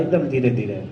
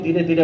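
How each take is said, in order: First: ધીરે ધીરે drawn out slow and low; very slowly. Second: Said in the usual way. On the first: Shown as a demonstration. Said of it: "સ્વામી ધીરે ધીરે બોલતા હતા".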